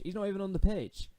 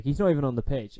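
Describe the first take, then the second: First: "He's not even on the pitch" said much higher in disbelief; incredulous. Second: Exasperated. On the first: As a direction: squeak it out in disbelief. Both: Real, not acted. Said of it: "for goodness sake".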